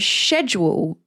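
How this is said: It is said in a British way.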